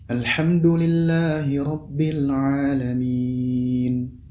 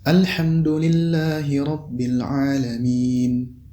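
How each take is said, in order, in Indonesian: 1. Vokal panjang terakhir ditahan cukup panjang. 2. Vokal panjang terakhir hanya ditahan sebentar. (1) "Apabila dibaca empat harakat" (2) "Kemudian apabila dibaca dua harakat"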